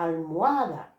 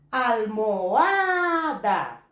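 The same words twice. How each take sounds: First: Said in the usual way. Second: "Almohada" said very slowly, loud on "ha"; slow stressed example. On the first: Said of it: "a sílaba forte dessa palavra". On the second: Shown as a demonstration. Teacher showing students where almohada takes its stress. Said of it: "O A não é tônico".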